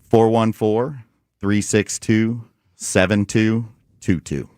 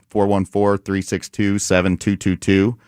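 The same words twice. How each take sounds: First: The number is said more slowly. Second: The number is said at normal speed.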